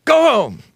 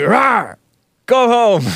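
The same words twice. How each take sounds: First: High-pitched mock warning shout; retold shout, only a little louder; imitated loud yell. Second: High-pitched imitation of a warning yell; retold yell, not full force; half-hearted mock yell. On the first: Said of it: "but he said it loud". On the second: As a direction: roar it playfully, holding back. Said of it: "like all soft".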